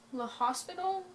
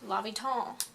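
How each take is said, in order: First: The name sounds like 'le hospital'. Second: The name sounds like 'lopital'. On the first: The speaker calls it wrong. "this title makes it sound as if it's Le, Hos- Le Hospital" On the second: The speaker calls it right. "it's actually pronounced L'Hopital"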